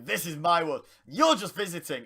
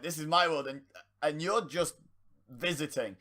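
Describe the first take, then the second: First: It flows smoothly without hesitation. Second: It stalls with stuttering pauses midway. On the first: The speaker believes what they are saying. The speaker calls it right. "it should be" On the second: The speaker had not planned what to say. The speaker calls it wrong. "he was stuttering over"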